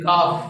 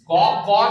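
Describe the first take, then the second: First: The letter name is said with a thin sound. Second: The letter name is said with a thick sound. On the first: The speaker calls it right. "इसे मोटा पढ़ो नको बारीक पढ़ो" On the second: The speaker calls it wrong. "कौ कौ नहीं बेटे"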